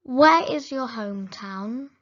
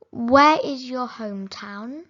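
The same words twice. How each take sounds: The two takes are said the same way.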